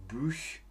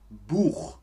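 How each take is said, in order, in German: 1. Der Vokal ist ein vorderer gerundeter 'ü'-Laut. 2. Der Vokal ist ein hinterer gerundeter 'oo'-Laut.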